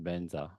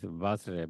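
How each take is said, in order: First: It starts with B and has an 'nz' cluster. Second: It starts with V and has a 'jr' cluster. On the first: This is how Tibetans recite it. "with Tibetan pronounced Benza" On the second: This is the original Sanskrit form. "in Sanskrit it is Vajra"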